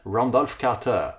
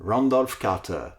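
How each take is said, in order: First: The name is said with an American accent. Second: The name is said with an American accent.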